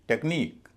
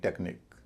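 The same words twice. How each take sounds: First: The stress is on the last syllable. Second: The stress is on the first syllable. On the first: The speaker calls it right. "Stress अंतिम syllable पर पड़ेगा" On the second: The speaker calls it wrong. "न कि technique"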